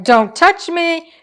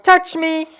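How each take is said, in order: First: A higher, slow, huffy pet's voice; mock-offended kitty; grumpy cat. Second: A higher, odd put-on pet's voice; mock-demanding kitty; needy cat. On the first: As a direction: voice the cat pushing you away. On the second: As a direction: voice the cat begging for attention. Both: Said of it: "and she's like".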